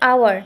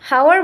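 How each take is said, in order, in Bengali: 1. শব্দটি সরাসরি একটি স্বরধ্বনি দিয়ে শুরু হয়। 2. শব্দটি এইচ ধ্বনি দিয়ে শুরু হয়। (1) "আমরা বলতেছি আওয়ার" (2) "হাওয়ার বলতেছি না"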